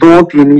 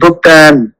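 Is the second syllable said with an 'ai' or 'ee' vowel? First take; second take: ee; ai. First: It is said as 'do teen', like two numbers. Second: It is said as one word, 'do-tain'. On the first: It sounds like the numbers two and three. The speaker calls it wrong. "अक्सर इसको हम पढ़ते हैं दो तीन, ये दो तीन नहीं है" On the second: It is the name of a place. The speaker calls it right. "ये जगह का नाम है दोतैन"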